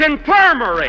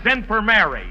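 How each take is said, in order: First: Infirmary snapped out higher and louder, run together, the Mary sound dropped; exasperated correction. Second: Infirmary said like "in firm Mary", stress on firm-MAR; read as in-firm-Mary. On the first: [name] correcting Phil's reading, loud and annoyed. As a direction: correct it sharply: infirmary, not "in firm Mary". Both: Real, not acted. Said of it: "That's infirmary!".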